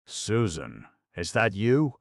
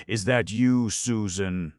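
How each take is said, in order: First: Hoarsely appealing. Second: Higher, hesitant call through the door; hesitating call. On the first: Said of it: "hoarsely appealing". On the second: Sick stranger outside the door, calling hesitantly. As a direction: ask it unsure, almost afraid of the answer. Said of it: "to call out in a hesitating way". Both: Acted.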